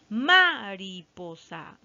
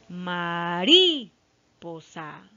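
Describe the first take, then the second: First: The stress is on the first syllable. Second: The stress is on the second syllable. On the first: "vamos a probar con ma" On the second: "Tampoco no está aquí"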